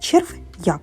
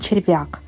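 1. Перед частиною 'як' є невелика пауза. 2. Вимовляється плавно, без паузи чи розділення. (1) "коли ви кажете роздільно, тобто робите коротенькі паузи" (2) "ми ж не кажемо"

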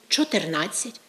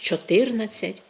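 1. Наголос падає на стандартний український склад. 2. Наголос падає туди, куди його ставить російська. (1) "замість" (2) "під впливом російської у нас часто вимовляють"

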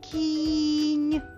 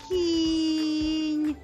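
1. Перший звук протягнутий. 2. Середній голосний звук протягнутий. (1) "Я знову буду голосом виділяти кожен звук у цьому слові" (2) "Назви звук після звука К"

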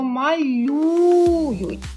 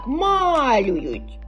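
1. Наголос на другому складі. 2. Наголос на першому складі. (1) "Ми кажемо малюють. На першу Ю" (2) "Бо якщо поставити на А, то буде звучати ось так"

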